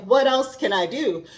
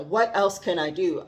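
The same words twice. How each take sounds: First: Higher, louder, bursting with eagerness; eager question. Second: Said in the usual way. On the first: Retold or imitated. Voicing Isabela freed at last, higher and eager. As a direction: burst out like someone newly freed. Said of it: "And she's like". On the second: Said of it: "That's where I'm at right now".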